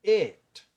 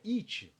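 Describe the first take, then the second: First: "it" as a loud, high "et", crisp T; corrected pronunciation. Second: "it" as Brazilian "itchi"; mistaken pronunciation. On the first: Teacher corrects the class, "it" as loud "et". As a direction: punch "it" with an E vowel and no final vowel. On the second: Teacher asks if this is right, "it" as "itchi". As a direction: add a CHEE ending to "it". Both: Shown as a demonstration. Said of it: "Não, isso aqui é".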